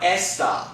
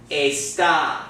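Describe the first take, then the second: First: Esta as "ESS-tah"; short English e in esta, weight up front; wrong English vowel. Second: Esta as "ay-STAH"; accented final syllable. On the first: Teacher shows what not to say, esta as ESS-tah. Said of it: "not, not esta". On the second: Teacher models the marked word, esta stressed on TA. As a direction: open with a pure e, stress the ta of esta. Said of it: "this word is gonna be pronounced". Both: Shown as a demonstration.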